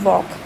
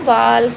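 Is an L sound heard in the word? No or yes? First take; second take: no; yes. First: No L sound is pronounced before the K. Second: An L sound is pronounced before the K. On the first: The speaker calls it right. "तो हम बोल रहे हैं वॉक" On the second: The speaker calls it wrong. "हमने ऐसे नहीं बोला ना वाल्क"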